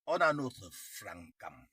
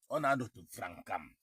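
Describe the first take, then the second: First: Lent, chaque mot appuyé sur « francam »; martèle « On a notre francam » lentement; insistance lente. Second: Said in the usual way. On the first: Shown as a demonstration. (redit plus lentement pour insister)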